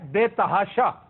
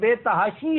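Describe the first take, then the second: First: The word ends with an 'a' vowel. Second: The word ends with an 'ee' vowel. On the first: The speaker calls it wrong. "ये तहाशा गलत है" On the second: The speaker calls it right. "ये बेतहाशी है"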